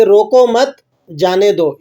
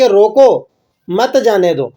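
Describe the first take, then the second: First: "روکو مت" together, pause, falling "جانے دو"; group مت with روکو, gap before جانے; pause after مت. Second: Group مت with جانے دو, gap after روکو; pause after روکو. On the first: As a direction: break after مت, then release جانے دو. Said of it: "پہلے آپ نے کیا کہا". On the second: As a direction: stop hard on روکو, then run مت into جانے دو. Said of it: "اب آپ کہہ رہے ہیں". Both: Shown as a demonstration.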